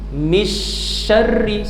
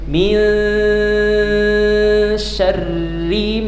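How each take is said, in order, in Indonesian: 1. Bunyi n dihilangkan sama sekali. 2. n adalah sengau tersembunyi, ditahan lama. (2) "tahan dua setengah sampai dengan tiga harakat"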